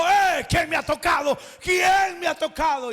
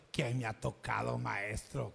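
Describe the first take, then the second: First: Loud, higher, urgent question to the crowd; Jesus stopping to call out loudly. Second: Low, much softer sarcastic echo; mock his question under your breath; mocking mimicry. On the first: Acted. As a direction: demand to know who touched you. Jesus asks who touched him. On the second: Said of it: "con ironía se lo estaban diciendo".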